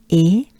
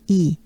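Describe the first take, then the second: First: E as a pure French é; E said "ay" without a glide; French E sound. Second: E as a long "ee"; E like "ee" in see; wide smiling E. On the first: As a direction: say E like the end of café. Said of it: "is pronounced by the air you exhale goes up". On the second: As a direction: say E with a big banana smile. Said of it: "E is a big banana smile". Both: Shown as a demonstration.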